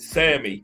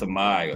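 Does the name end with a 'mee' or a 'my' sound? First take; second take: mee; my. First: The name ends with a 'mee' sound. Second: The name ends with a 'my' sound. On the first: "That's the English pronunciation" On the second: "Probably Samai"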